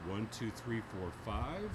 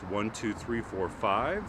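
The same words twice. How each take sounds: First: The voice comes from behind. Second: The voice comes from the side. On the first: "Behind the microphone" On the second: "Now at ninety degrees"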